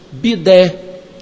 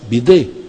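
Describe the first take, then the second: First: The final stressed e vowel is open. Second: The final stressed e vowel is closed. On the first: This is how it is said over there. "que eles usam lá com agudo" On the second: This is how it is said here. "para nós"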